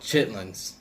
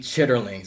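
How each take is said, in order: First: The word is shortened to two syllables. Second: The word is said in full, three syllables. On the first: This is the everyday community name. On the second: This is the formal, proper name.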